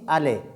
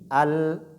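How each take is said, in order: First: The L ends with a short echoing bounce. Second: The L is held smoothly with no bounce. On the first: The speaker calls it wrong. "on ne fait pas de la qalqala" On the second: The speaker calls it right. "on dit al"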